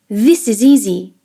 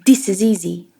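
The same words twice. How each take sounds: First: 'This' begins with a buzzing Z sound. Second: 'This' begins with a soft D sound. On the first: The speaker calls it wrong. "Instead of this" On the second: The speaker calls it right. "try this"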